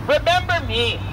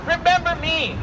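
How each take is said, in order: Both takes have the same delivery.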